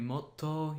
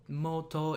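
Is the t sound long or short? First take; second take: long; short. First: The t sound is held long and doubled. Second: The t sound is short and single. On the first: "it will make the T longer" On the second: "it won't be mo- moto"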